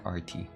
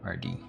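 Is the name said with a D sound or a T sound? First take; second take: T sound; D sound. First: The name is said with a hard T sound. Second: The name is said with a soft D sound. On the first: "maybe it's more like R T" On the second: "I keep calling R D with the D"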